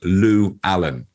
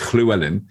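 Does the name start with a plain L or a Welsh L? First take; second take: plain L; Welsh L. First: It starts with a plain English L sound. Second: It starts with a soft Welsh L sound. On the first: This is how Americans say it. The speaker calls it wrong. "I became Robert Lou Allen because they didn't. So they thought it was a, like three names" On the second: This is how a Welsh person says it. The speaker calls it right. "Llywelyn is how you would say it if you were Welsh"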